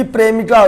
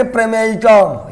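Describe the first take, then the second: First: "प्रेमिका" said in three syllables, pre-mi-ka; shortened "प्रेमिका", pre-mi-ka; wrong word form. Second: "प्रमेयिका" said in four syllables, pra-mey-i-ka; full "प्रमेयिका", pra-mey-i-ka; correct term. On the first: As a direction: say "प्रेमिका" without the middle "may" sound. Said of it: "तो प्रेमिका नहीं बोलेंगे". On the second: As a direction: say "प्रमेयिका" with a clear "mey" in the middle. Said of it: "हम बोलेंगे प्रमेयिका". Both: Shown as a demonstration.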